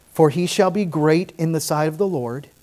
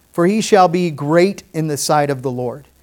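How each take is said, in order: The two takes are said the same way.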